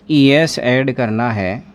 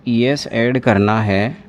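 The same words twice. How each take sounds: The two takes are said the same way.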